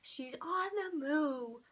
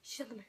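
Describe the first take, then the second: First: Drawn-out "on the move", half speed; freaking out. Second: Hushed, softer whisper; freaked-out whisper. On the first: Fan watching Mama Swift leave, slow drawn-out freak-out. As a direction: stretch each word in mounting disbelief. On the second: Fan watching Mama Swift leave, freaked-out whisper. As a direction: whisper it as if to yourself. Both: Retold or imitated. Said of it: "I was freaking out".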